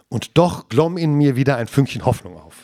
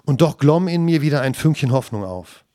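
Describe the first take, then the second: First: The sentence is read with strong emphasis throughout. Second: The sentence is read in a plain, unstressed way.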